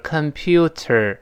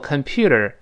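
First: It is slow, with a clear t sound. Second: It is fast, with a soft flapped t. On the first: "读得很慢的时候是computer" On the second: "读快了之后computer，这个t 一定会浊化"

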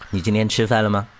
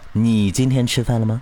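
First: The stress falls on the word 吃饭. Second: The stress falls on the word 你. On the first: The question is whether the person has eaten. "吃没吃饭呀？这吃饭呀。" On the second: The question is about this person, not someone else. "你在问我，你没有在问修理吃没吃饭。"

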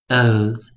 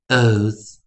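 First: The final s sound is voiced, a buzzing z. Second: The same.

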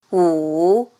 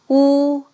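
First: The pitch dips low, then rises. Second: The pitch stays high and level. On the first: "三声拐弯" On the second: "一声平"

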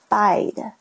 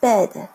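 First: The vowel sounds like the 'i' in 'bide'. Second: The vowel is a short 'e' sound. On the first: The speaker calls it wrong. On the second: The speaker calls it right.

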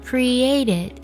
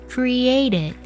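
The two takes are said the same way.

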